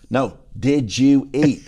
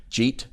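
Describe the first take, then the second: First: "did you eat" slow and louder, every word separate; slow, emphatic "did you eat" for someone not understanding; spelled-out translation. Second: "Jeet?" as one quick syllable, did you eat squashed together; "Jeet?" slurred short for did you eat; run-together Southern slur. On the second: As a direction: ask "Jeet?" in a single rising Southern syllable. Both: Acted. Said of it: "you need to translate".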